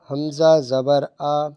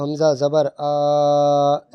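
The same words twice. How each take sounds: First: The final vowel is short and smooth. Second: The final vowel is stretched out long. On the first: The speaker calls it right. "ना झटका देंगे और ना खींच के पढ़ेंगे" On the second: The speaker calls it wrong. "ये खींचना हो गया"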